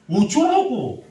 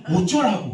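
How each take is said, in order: First: Sharp high loud mock snap of "어쩌라고?"; exasperated shout of "어쩌라고?" at the angry youth; exasperated retort. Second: Said in the usual way. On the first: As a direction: throw "어쩌라고?" back loud and high, fed up. Pastor retells snapping at youth.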